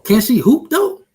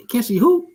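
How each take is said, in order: First: Much higher, louder playful rise; tease, squeaking up on though; teasing question. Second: Teasing repeat. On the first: Teasing question about the announcer. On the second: Repeats the tease. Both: Real, not acted.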